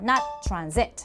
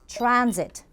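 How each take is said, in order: First: The stress is on the second syllable. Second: The stress is on the first syllable. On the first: The speaker calls it wrong. "nobody says transit. That would be wrong" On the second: The speaker calls it right. "has an accent on the A"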